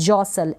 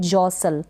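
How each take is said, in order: The two takes are said the same way.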